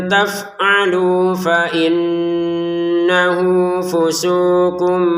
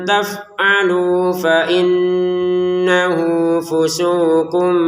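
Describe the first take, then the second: No difference in how they are said.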